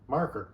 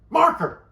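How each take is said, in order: First: It is asked calmly and politely. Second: It is shouted in an enraged way.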